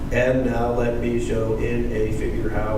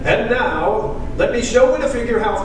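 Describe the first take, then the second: First: It is read in a flat, lifeless way. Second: It is read in a lively, dramatic way. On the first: The speaker calls it wrong. "I do not want you to read it like this" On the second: The speaker calls it right. "I want to see some drama"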